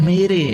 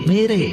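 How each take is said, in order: The two takes are said the same way.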